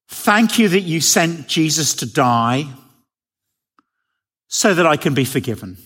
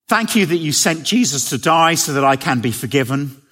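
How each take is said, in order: First: It is said slowly. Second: It is said at a normal pace.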